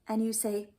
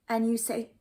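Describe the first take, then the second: Both takes have the same delivery.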